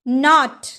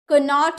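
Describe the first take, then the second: First: The word starts with an n sound. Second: The word starts with a k sound. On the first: The speaker calls it right. "नॉट यानी कि गाठ" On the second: The speaker calls it wrong. "कनॉट नहीं"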